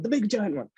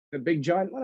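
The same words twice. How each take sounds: First: "The big giant one." stated with a falling end and stress on big; firm confirmation. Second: "The big giant one?" asked with a rise at the end; questioning rise. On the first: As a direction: answer firmly, settling it. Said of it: "I'm like". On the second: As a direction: ask it back as a doubtful question. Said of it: "He's like". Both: Retold or imitated.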